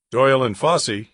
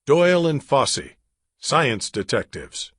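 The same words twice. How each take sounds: First: A touch louder, crisply professional phone greeting; best scientific voice. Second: Said in the usual way. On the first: Acted. Drake answering the lab phone, in a mock-professional voice. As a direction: answer like a serious scientist on duty. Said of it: "speaking in his best scientific voice". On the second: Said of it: "Their business card read".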